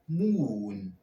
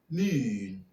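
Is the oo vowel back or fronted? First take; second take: back; fronted. First: The vowel is a back oo sound. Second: The vowel is a fronted oo sound. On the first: "with a classic pronunciation" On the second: "for the modern pronunciation"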